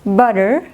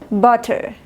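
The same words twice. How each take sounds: First: The middle t is a soft, r-like tap. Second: The middle t is a strong, crisp t. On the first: "inglés americano" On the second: "Inglés británico"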